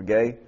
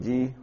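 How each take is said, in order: First: "gay" with an ay vowel; the Greek word said as "gay", hard g and long a; Greek pronunciation. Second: "gi" said with an ee vowel; pronounced as spelled. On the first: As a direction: say "gay" to rhyme with "day". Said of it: "it's pronounced actually gay". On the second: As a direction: say "gi" like the English letter G. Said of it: "it's pronounced actually gay, but it's spelled G E". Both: Shown as a demonstration.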